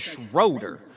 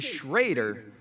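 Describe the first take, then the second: First: The name is said the common way. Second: The name is said the local way. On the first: Most people elsewhere say it like this. "everyone else in the world says Schroeder" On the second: The speaker is from this town. "we say Schrader"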